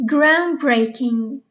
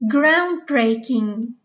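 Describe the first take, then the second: No difference in how they are said.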